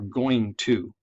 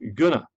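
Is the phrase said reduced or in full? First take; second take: full; reduced. First: Every sound in the phrase is pronounced. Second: Some sounds are dropped from the phrase. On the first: The speaker calls it right. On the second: The speaker calls it wrong.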